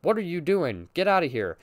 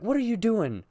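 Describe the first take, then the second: First: Flat mock-deadpan mom line; bad acting, deadpan. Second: Bad acting, deadpan. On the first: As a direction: say it like a bored bad actor. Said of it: "Or, like". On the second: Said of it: "with, like, no emotion whatsoever".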